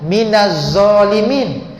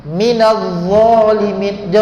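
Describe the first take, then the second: Both takes have the same delivery.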